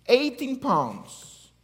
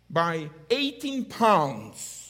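First: Eighteen pounds repeated slow and higher, louder; emphatic repeat. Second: By eighteen pounds said slowly; stressed slow. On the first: Pastor repeating the overload amount, slow and emphatic. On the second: Pastor stressing tiny overload amount, slowly. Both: Shown as a demonstration.

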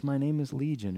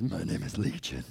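First: Said in the usual way. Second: A demon speaking out of the man, low and menacing; low monstrous demon voice; deep demon voice. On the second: Retold or imitated. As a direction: drop way lower into a growling possessed voice. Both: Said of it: "He probably says".

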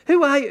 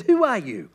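First: Higher, louder pressing question; demanding repeat. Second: Said in the usual way. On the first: Acted. Pharisees pressing John, louder demanding question. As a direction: push the question harder.

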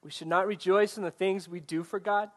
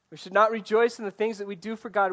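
First: Said in the usual way. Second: "not" punched louder and higher in the repeat; louder repeat, stress on not. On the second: Shown as a demonstration. Pastor repeats the point to the congregation, stress on "not". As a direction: hit "not" hard the second time around.

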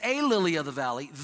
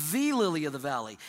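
First: "A" said lightly as the indefinite article; a plain "A lily of the valley" shown as the wrong wording. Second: "the" punched as the one and only lily; stress on THE. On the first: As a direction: read "A" as the throwaway article before "lily". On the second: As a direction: lean hard on "the" before "lily". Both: Shown as a demonstration. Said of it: "no, she doesn't say".

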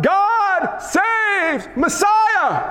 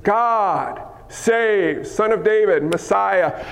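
First: High, drawn-out desperate shout; crying out. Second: Said in the usual way. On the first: Acted. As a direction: cry it out high to be heard over a crowd. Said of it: "Bartimaeus cried out".

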